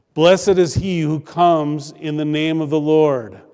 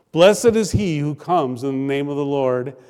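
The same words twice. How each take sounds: The two takes are said the same way.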